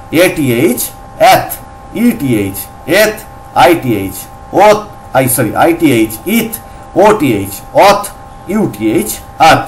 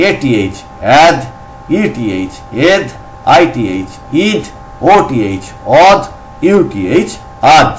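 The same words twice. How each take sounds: First: "এথ", "ইথ", "অথ" ending in aspirated voiceless t. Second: "অ্যাদ", "ইদ", "অদ" ending in voiced dental d. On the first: Teacher drills first reading of TH, "এথ" with a থ ending. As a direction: end "আথ" on an airy dental th. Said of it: "একটা থ দিয়ে করব". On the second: Teacher drills second reading of TH, "অ্যাদ" with a দ ending. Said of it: "এটা আবার দ দিয়ে করলে". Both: Shown as a demonstration.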